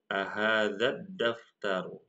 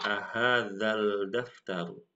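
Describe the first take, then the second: First: A doubled D is heard before daftaru. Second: An L sound is heard before daftaru. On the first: The speaker calls it right. "tetapi ahadzat ahadzad daftaru" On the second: The speaker calls it wrong. "bacanya bukan ahadzal daftaru"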